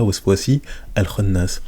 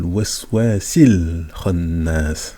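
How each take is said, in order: First: The 'a' of 'al' is pronounced separately. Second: The 'a' is dropped, linking into 'l khannas'. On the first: The speaker calls it wrong. "On ne dit pas" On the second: The speaker calls it right. "On dit"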